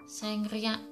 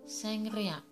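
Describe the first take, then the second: Both takes have the same delivery.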